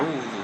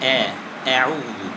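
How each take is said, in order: First: The opening vowel is stretched out long. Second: The opening vowel is bent toward an e sound. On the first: "হামজাকে টান দিয়ে পড়ি" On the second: "বাঁকা করে"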